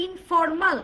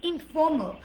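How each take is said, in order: First: "informal" with sounded r and full "maal"; Bangla-style "informal", every letter sounded; wrong pronunciation. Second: "informal" as in-FOH-muhl, r dropped; "informal" without r, short "ml" ending; corrected pronunciation. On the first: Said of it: "not informal". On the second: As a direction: say informal with a weak last syllable. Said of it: "it's informal". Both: Shown as a demonstration.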